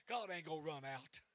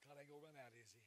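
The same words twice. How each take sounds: First: "God ain't gonna run out" called out louder with weight on God; loud declaration. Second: "God ain't gonna run out" repeated much softer; soft echo. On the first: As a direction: proclaim it, hitting "God". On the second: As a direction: pull back and say it gently. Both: Real, not acted. Preacher repeats line loud then soft.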